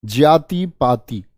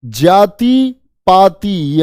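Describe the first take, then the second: First: जाति पाति said cleanly and a bit slow; calm correct repeat; correct model. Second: जाति पाति very slow, nasal vowels drawn out; slow nasal model words; nasalized demo. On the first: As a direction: say जाति पाति crisply as the pure form. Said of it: "एकदम शुद्ध". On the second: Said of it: "यहां चंद्र बिंदु आएगा". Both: Shown as a demonstration.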